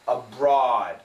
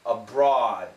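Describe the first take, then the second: No difference in how they are said.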